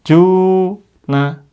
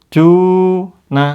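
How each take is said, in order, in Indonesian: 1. Vokal pertama dibaca panjang. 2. Vokal pertama dibaca panjang.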